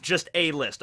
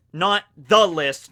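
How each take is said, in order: First: A stressed, quieter. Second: The stretched and stressed. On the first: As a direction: lean on a, drop volume. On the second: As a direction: lean hard on the. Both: Shown as a demonstration.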